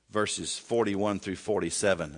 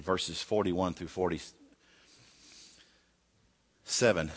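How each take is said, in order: First: Said in the usual way. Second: "verses forty-one through forty-seven" said very slowly, word by word; slow, deliberate reference read; slow repeat. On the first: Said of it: "again, this is not on your screen". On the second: Shown as a demonstration. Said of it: "if you can turn over First Samuel seventeen".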